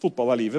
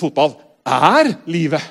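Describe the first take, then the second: First: It is said lightly, as a casual figure of speech. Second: It is said weightily, in dead earnest. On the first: Football is just a hobby one likes a lot. "ikke bare sånn" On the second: Football is literally what life is about.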